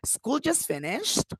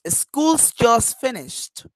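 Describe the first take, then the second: First: It is said as a question. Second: It is said in a plain, neutral tone. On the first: The speaker is asking whether it is true. "Or the questions" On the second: It simply states a fact. "I am just saying correctly"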